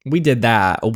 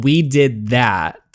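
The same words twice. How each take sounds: First: Said in the usual way. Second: Slow and firm, WE stressed; proud emphasis. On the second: Real, not acted. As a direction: savour the win, stressing "We".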